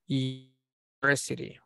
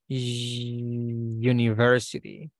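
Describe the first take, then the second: First: The word begins with a plain vowel sound. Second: The word begins with a consonant y sound. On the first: The speaker calls it wrong. "we don't say university" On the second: The speaker calls it right. "We say university. So there is a vibration. So that is considered a consonant sound"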